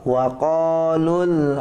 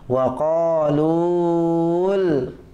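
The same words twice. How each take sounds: First: The vowel in lu is short. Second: The vowel in lu is long. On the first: The speaker calls it right. "tidak dibaca panjang" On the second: The speaker calls it wrong. "jangan Bapak gini"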